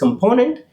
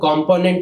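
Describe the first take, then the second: First: One vowel is reduced to a weak schwa. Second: All its vowels are said full, without a schwa. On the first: The speaker calls it right. "The pronunciation is कंपोनेंट ... वहां पे भी श्वा symbol present है" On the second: The speaker calls it wrong. "उसको कंपोनेंट नहीं कहा जाता"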